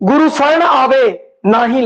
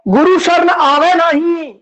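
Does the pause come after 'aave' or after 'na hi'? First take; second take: after aave; after na hi. First: The pause comes after 'aave', before 'na hi'. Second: The pause comes after 'na hi', not before. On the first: Whoever comes to the refuge feels no pain. "जे गुरु की शरण आ गए ना ही लागे दुख पीड़" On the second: Whoever does not come to the refuge feels pain. "गुरु की शरण च आंदा ही नहीं"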